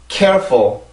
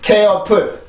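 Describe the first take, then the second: First: It is said with a light English-style ending. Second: It is said with a Korean-style full ending. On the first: The speaker calls it right. "영어처럼 읽으려면" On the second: The speaker calls it wrong. "이렇게 발음하면 안 돼요. 그건 한국어 형식이고"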